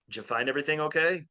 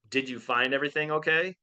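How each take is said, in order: First: The words are run together and slurred. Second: Each word is said separately and clearly. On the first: "They say" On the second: "they don't ask"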